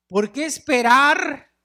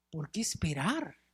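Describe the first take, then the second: First: Slow and loud, stressing esperar; emphatic question. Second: Softer, gentle echo of esperar; soft repeat. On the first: Preacher challenges congregation, stressing esperar. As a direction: press esperar hard, slowly. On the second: Preacher repeats quietly to congregation, soft echo. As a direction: let esperar fall quietly, reflective. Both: Shown as a demonstration.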